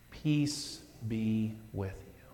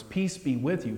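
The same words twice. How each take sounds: First: Soft and slow; gentle blessing. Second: Said in the usual way. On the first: Retold or imitated. Jesus to the disciples, gentle and slow. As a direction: say it as a gift. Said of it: "and he says". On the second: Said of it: "these words".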